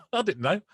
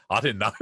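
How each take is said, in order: First: Giggling disbelief at himself; laughing. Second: Said in the usual way. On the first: Real, not acted. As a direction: laugh through the words, a bit higher. Repeats line through a laugh.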